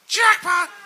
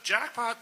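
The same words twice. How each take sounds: First: The word is yelled loudly. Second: The word is said at normal, quiet volume.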